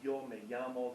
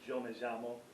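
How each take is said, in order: First: The 'y' and 'll' sound like English y. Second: The 'y' and 'll' sound like English j. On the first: This is the usual pronunciation in most places. "Instead of saying" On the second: This is the regional pronunciation of Argentina and Uruguay. "they'll say"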